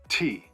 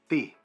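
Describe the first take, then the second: First: The T is released with a strong puff of air. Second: The T is released with no puff of air. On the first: The speaker calls it right. "a proper North American T" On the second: The speaker calls it wrong. "a non aspirated T"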